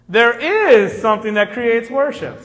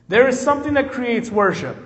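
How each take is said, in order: First: The sentence has more varied, emphatic intonation. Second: The sentence has flatter, less emphatic intonation. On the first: The speaker calls it right. "the inflection makes it sound better" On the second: The speaker calls it wrong. "I said that wrong"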